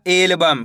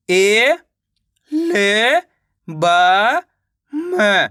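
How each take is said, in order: First: Said in the usual way. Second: "ए, ल, ब, म" separately with pauses; teacher's letter-by-letter "ए, ल, ब, म"; sounding out letters. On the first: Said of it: "मिलके बन जाएगा". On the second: Shown as a demonstration. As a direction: stretch each of "ए, ल, ब", tune rising, then drop on "म". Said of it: "तो मिलके बन जाएगा एल्बम".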